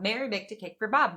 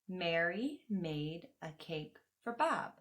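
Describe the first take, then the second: First: The sentence is spoken very fast and intensely. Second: The sentence is spoken slowly and deliberately. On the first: "really fast, a little intense" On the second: "let's try to slow it down"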